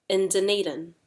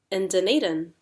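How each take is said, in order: First: DUNEDIN kept level, then dropped; making a statement. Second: DUNEDIN swooping up then falling; expression with intonation. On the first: Teacher runs through the sequence, DUNEDIN as even statement. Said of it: "making a statement". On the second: Teacher runs through the sequence, DUNEDIN rising then falling. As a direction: lift the middle of "Dunedin", then drop. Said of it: "we have expression, intonation up". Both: Shown as a demonstration.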